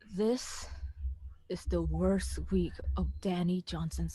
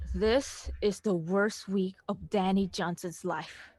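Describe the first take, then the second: First: It is said in a soft voice. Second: It is said in a full, normal voice.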